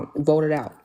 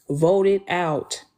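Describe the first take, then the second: First: Said in the usual way. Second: "Vote it out" dragged out slowly, each word pressed; slow firm emphasis. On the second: Retold or imitated. Telling Wolf her verdict on kids, slow and firm. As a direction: lay down the law on "Vote it out", slow and final. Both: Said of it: "I laid the law down".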